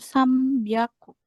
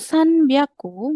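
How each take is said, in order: First: The nasal before b is an m sound. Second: The nasal before b is an n sound. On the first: The speaker calls it right. "melainkan sam byaku" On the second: The speaker calls it wrong. "Bukan san byaku"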